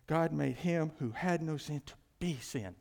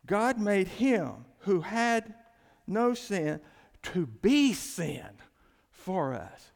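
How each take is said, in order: First: Said in the usual way. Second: Slow, loud, every word weighted; emphatic scripture reading. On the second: Shown as a demonstration. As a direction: lean hard on "God made him who had no sin to be sin". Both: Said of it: "see how I emphasize the next words".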